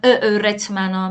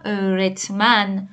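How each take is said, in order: First: «ا، رتمنا» with a separate faint vowel first; wrong extra vowel. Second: «ا، رتمن» slowly with one smooth long ö onset; correct Ö onset. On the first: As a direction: break a short extra vowel before «رتمنا». («ا، رتمنا» با یک ا خفیف اضافه) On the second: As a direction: glide from a long ö straight into «رتمن». («ا، رتمن» با ö کشیده و یکدست) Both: Shown as a demonstration.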